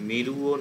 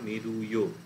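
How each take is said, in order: First: The final vowels are said as separate syllables. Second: A short y-glide joins the final vowels. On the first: The speaker calls it wrong. "মে রু ও এরাম উচ্চারণ না করে" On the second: The speaker calls it right. "একটু য় ভাবটা আনলে ভালো হয়"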